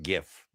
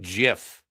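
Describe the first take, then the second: First: It begins with a hard 'g' sound. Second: It begins with a soft 'j' sound. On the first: The speaker calls it wrong. "not GIF" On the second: The speaker calls it right. "It's a soft G. It's like GIF"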